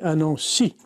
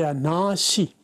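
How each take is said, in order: First: The stress falls on the last syllable of Nancy. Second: The stress falls on the first syllable of Nancy. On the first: "Le français accentue tout sur la finale" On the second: "c'est accentué sur l'avant-dernière"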